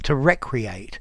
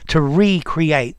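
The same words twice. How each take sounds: First: The first syllable 're' is not stressed. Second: The first syllable 're' is stressed.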